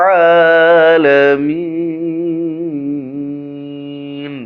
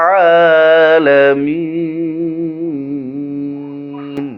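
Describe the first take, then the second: No difference in how they are said.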